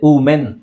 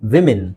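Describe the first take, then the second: First: The word begins with a plain oo vowel. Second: The word begins with a w sound. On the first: The speaker calls it wrong. "ಅದು ವ ಬರೋದೇ ಇಲ್ಲ, ಉ ಹೇಳ್ತಾರೆ" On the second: The speaker calls it right. "ಇದನ್ನ ಹೆಂಗೆ ಹೇಳ್ತೀವಿ ನಾವು ನೋಡಿ?"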